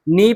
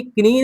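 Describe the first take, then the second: First: नी starting straight on n; silent k. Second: किनी with the k spoken before n; k wrongly sounded. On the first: Teacher giving students the right reading, नी without k. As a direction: say नी as "knee", no k at all. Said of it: "नी पढ़ेंगे". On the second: Teacher showing students the wrong reading, किनी with audible k. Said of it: "किनी नहीं पढ़ेंगे". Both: Shown as a demonstration.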